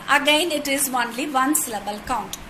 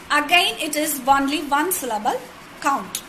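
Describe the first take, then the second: No difference in how they are said.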